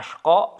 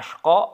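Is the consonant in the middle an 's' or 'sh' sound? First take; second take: sh; sh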